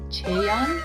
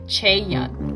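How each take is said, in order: First: The opening 'ch' sound is light and soft. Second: The opening 'ch' sound is hard and strong. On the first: The speaker calls it right. "like like slight C H" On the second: The speaker calls it wrong. "sometimes I do it way too much"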